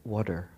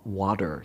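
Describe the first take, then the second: First: "water" said with a rounded "waw" vowel, like "wawter"; New Jersey "water". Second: "water" said with an open "wah" vowel, like "wahter"; Californian "water". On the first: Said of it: "New Jersey accent every time I". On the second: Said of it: "you all Californians say". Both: Shown as a demonstration.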